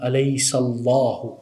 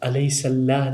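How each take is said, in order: First: The word ends with a final 'u' vowel. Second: The word ends on 'h' with no final vowel. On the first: The speaker calls it right. "अलैसल्लाहु, ठीक है" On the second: The speaker calls it wrong. "ये अलैसल्लाह नहीं है"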